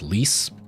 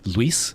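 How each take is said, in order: First: The U sound is nearly dropped. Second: There is a clear dip into the U. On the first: This is how it sounds in English. "The U is a lot less emphasized. It's almost like just saying L I S" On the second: This is how it sounds in Spanish. "There's like a little dip into the U"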